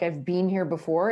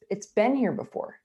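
First: "been" said like "bean", with a long ee; Canadian "been". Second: "been" said like "Ben", with a short vowel; American "been". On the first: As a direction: stretch "been" to rhyme with "seen". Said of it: "you can't say been". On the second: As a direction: shorten "been" to rhyme with "ten". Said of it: "You have to say been". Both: Shown as a demonstration.

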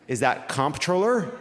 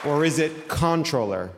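First: "comptroller" said slowly with COMP, M and P sounded; pronouncing the P. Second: "controller" said with CON, no M or P; silent MP. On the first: Host polls audience on the word, "comptroller" with sounded MP. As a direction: say "comptroller" as spelt, comp-troller. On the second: Host offers audience the other option, "controller" as con-troller. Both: Shown as a demonstration. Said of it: "I'm gonna do two things".

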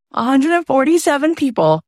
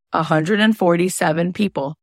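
First: A hundred and forty-seven people, punched high; emphatic repeat. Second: Said in the usual way. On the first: Real, not acted. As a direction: hit the number harder. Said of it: "repeated for emphasis". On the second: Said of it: "repeated number, first take".

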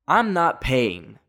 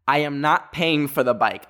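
First: Each word laid down slowly; I'm not paying, slow and deliberate; refusing to pay for the crashed bike, slow and firm; slow firm refusal. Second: "not" punched, ending with a fall; I am NOT paying, with weight on "not"; refusing the assistant, leaning on "not"; stress on not. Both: Retold or imitated. Refusing to pay at the rental office.

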